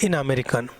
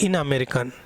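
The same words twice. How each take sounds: Both takes have the same delivery.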